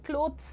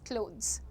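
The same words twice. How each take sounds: First: The ending has a hard 'th' sound. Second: The ending has a buzzing 'z' sound. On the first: The speaker calls it wrong. "थ नहीं बोलना है, क्लोथ्स नहीं होता है वो" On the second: The speaker calls it right. "It is क्लोथ्स। ज ज ज।"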